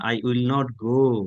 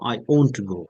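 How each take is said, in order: First: Will and not are said as two full words. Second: Will not is shortened into one contracted word. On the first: The speaker calls it wrong. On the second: The speaker calls it right.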